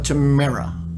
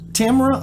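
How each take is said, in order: First: The stress is on the second syllable. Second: The stress is on the first syllable. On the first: "First or second" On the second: "First or second"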